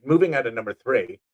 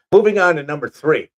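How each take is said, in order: First: Said in the usual way. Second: Booming list-show announcement; loud announcer restart. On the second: Shown as a demonstration. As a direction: announce it big, then back off.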